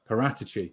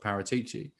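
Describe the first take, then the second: First: The stress is on the 'rat' syllable. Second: The stress is not on the 'rat' syllable. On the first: The speaker calls it right. "the emphasis is on rat" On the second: The speaker calls it wrong. "it isn't as I expected, which was, of course"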